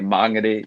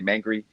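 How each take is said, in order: First: The name is said with full Māori vowels. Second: The name is said in a clipped, anglicized way. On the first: The speaker calls it right. "but I know that I have to say mangere" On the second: The speaker calls it wrong. "sometimes I always want to say mangry"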